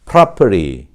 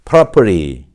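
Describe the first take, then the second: First: The r is sounded and the t is flapped. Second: The same.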